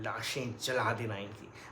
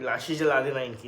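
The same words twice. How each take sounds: First: It is said deep, clear, stressing each syllable. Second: It is said in an ordinary, unweighted voice. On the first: The speaker calls it right. "बैरीटोन create किया है अपनी voice में ... एक stress देकर बोलता है syllables पे" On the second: The speaker calls it wrong. "ना वो ऐसा नहीं कि"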